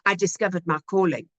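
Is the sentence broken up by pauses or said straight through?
straight through. It is said evenly, without any pauses. The speaker calls it wrong. "than saying"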